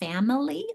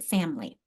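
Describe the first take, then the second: First: It is said with three full syllables. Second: It is said with only two syllables. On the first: "actually pronounce it family" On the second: "like two syllables"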